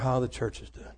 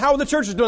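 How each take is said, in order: First: It is asked in a heavy, worried tone. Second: It is asked in a plain, upbeat tone. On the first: The asker expects bad news. "they ask it this way" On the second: The asker expects normal news. "They don't say"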